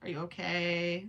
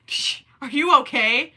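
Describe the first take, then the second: First: Said in the usual way. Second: Louder, playful are you okay with a rise on you; mock concerned. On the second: Shown as a demonstration. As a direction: tease the question up high. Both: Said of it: "repeats question differently".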